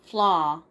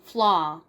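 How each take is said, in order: Both takes have the same delivery.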